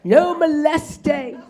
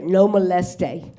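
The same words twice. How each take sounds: First: "No moleste" drawn out very slowly with a quizzical lilt; questioning no moleste. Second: "No moleste" said slowly and deliberately. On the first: Comedian questioning the hotel sign, slow "No moleste". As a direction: linger on "No moleste" as if suspicious. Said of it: "should I be at this hotel". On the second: Comedian savoring the hotel sign, slow "No moleste". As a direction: stretch out "No moleste" syllable by syllable. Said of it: "Does that sound". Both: Shown as a demonstration.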